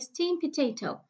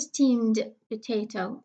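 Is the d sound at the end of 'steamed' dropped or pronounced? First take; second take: dropped; pronounced. First: The d sound in 'steamed' is dropped. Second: The d sound in 'steamed' is clearly pronounced. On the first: The speaker calls it right. "the middle de will be elided" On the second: The speaker calls it wrong. "So I don't say steamed potato"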